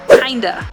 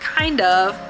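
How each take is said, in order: First: The word 'of' is reduced to 'uh'. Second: The word 'of' is said in full. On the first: "we say kinda" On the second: "Just like kind of"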